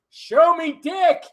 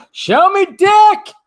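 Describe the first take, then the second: First: High drawn-out repeat. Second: High, loud, stretched-out shout; mock shout. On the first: Acted. Vlogger repeating his catchphrase, high and slow. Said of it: "catchphrase repeated". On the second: Vlogger shouting his catchphrase, high and loud. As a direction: bellow it slowly like a battle cry. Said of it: "catchphrase shouted".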